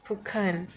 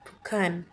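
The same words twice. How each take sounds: Both takes have the same delivery.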